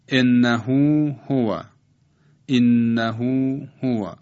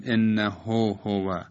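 First: Slow recital, انه ending in a long held ū; full long vowel. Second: انه ending in a short o, unstretched; short vowel mistake. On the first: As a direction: stretch انه to end in hū before هو. («انه» با اوِ کشیده و پر در آخر) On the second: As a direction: say انه with a brief ho before هو. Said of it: "در اینجا غلط است که بگیم". («انه» با ضمهٔ کوتاه، بدون کشش) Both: Shown as a demonstration.

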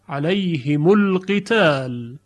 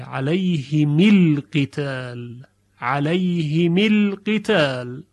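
First: علیهم القتال said slowly as alayhimu l-qital, the mim with a short u; the final mim of علیهم takes a short u before القتال; mim with damma. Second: علیهم القتال said slowly as alayhimi l-qital, the mim with a short i; the final mim of علیهم takes a short i before القتال; mim with kasra. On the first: Teacher models the majority reading for students, mim with damma. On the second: Teacher models the Duri reading for students, mim with kasra. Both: Shown as a demonstration.

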